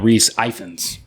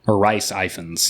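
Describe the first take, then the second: First: The first name sounds like 'Reese'. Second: The first name sounds like 'Rice'.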